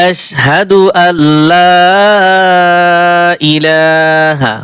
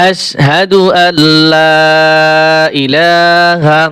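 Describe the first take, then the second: The two takes are said the same way.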